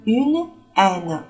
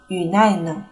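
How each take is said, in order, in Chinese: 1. n 音与下一个词分开读。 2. n 音连到下一个词上读。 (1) "后面的这个是une aine" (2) "你不能读成une aine 是错误的"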